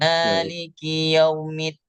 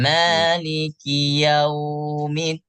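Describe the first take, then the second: First: The 'yau' sound is short, not held. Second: The 'yau' sound is held for two beats. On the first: The speaker calls it wrong. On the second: The speaker calls it right. "Dipanjangkan dua harokat"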